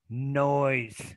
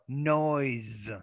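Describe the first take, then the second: First: The word ends with an S sound. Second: The word ends with a Z sound. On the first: The speaker calls it wrong. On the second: The speaker calls it right.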